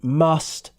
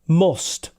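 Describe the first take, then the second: First: It has the RP vowel. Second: It has the northern English vowel. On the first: "if you want to sound R P, then you want must" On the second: "in the north, we say must"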